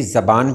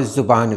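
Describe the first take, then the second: First: ज़बान with short "a" after z; correct variant. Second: ज़ुबान with short "u" after z; correct variant. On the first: Teacher allowing one variant, pronounced with a. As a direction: say "za-baan" for ज़बान. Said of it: "सही ज़बान भी है". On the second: Teacher allowing another variant, pronounced with u. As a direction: say "zu-baan" for ज़ुबान. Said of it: "ज़ुबान भी है". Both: Shown as a demonstration.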